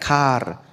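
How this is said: It is said with a clear final r sound.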